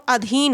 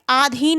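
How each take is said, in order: First: अधीन said with a short अ at the start, the right form; teacher gives अधीन with a crisp short first vowel; correct spelling said. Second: आधीन said with a long आ at the start, the wrong form; teacher stretches the first vowel of आधीन as आ; wrong spelling said. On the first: Teacher to exam students, giving the correct short अ in अधीन. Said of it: "अधीन होता है". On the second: Teacher to exam students, showing the wrong long आ in आधीन. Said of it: "आधीन नहीं होता है". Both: Shown as a demonstration.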